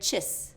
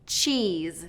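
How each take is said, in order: First: The vowel is short. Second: The vowel is a long E. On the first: The speaker calls it wrong. "I'm hearing chis" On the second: The speaker calls it right. "that long E sound for cheese"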